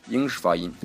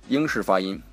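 Both takes have the same delivery.

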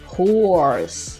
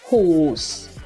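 First: It is said in an American accent. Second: It is said in a British accent.

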